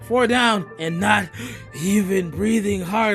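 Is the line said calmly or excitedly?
calmly. It is said in a calmer, less excited way.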